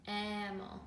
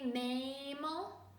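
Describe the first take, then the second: First: The first vowel is a short A sound. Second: The first vowel is a long A sound. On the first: The speaker calls it right. "Or do we hear a short A sound, mammal" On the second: The speaker calls it wrong. "Do we hear long A, a, mammal?"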